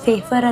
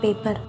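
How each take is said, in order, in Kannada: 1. p ಶಬ್ದಗಳನ್ನು f ಶಬ್ದಗಳ ತರಹ ಹೇಳ್ತಾರೆ. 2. p ಶಬ್ದಗಳನ್ನು ಸರಳ p ತರಹ ಹೇಳ್ತಾರೆ. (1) "ಅಲ್ಲ" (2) "ಅದು ಫೇಫರ್ ಅಲ್ಲ ಪೇಪರ್"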